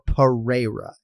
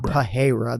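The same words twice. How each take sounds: First: The R in the middle is plain, not rolled. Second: The R in the middle sounds like an H. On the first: The speaker calls it right. "or Pereira" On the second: The speaker calls it wrong. "It's not Pereira. There's no H whatsoever"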